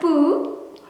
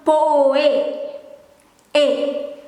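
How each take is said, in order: First: The vowels merge into one long oo sound. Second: The vowels are said as two separate sounds. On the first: The speaker calls it wrong. "instead of poo" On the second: The speaker calls it right. "it becomes poe, a"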